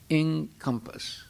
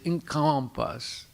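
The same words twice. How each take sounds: First: The stress is on the first syllable. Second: The stress is on the second syllable. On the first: The speaker calls it right. "Put the emphasis on the first syllable" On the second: The speaker calls it wrong. "you're putting the emphasis on the second syllable. ... that that's a mispronunciation"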